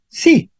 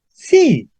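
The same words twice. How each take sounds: First: The word is short and not lowered. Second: The word is longer and lower. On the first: It simply confirms a positive question. "en el primer caso yo digo sí" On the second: It contradicts a negative question. "más largo y más bajo"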